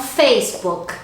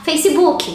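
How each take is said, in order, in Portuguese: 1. É falado com sotaque do inglês americano. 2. É falado com sotaque do português brasileiro. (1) "em inglês, as pessoas falam Facebook, que é uma entonação diferente" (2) "aqui no Brasil a gente está acostumado muito a falar Facebook"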